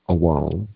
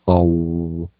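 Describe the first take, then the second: First: The W sound is short and single. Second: The W sound is doubled and held longer. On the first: The speaker calls it wrong. "it's not awal, like with one W" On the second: The speaker calls it right. "you want to get that sound of the double letter"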